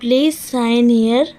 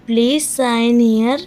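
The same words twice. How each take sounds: First: Said in the usual way. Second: Slower, clear repeat of Please sign here; slow it down so learners can copy. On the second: Shown as a demonstration. Teacher repeating Please sign here for learners, slower. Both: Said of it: "repeated phrase for learners".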